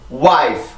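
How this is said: It is said with English rhythm and kept stress. The speaker calls it right. "리듬을 타고 wife"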